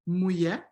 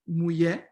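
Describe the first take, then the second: First: The middle sound is a y-like glide. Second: The same.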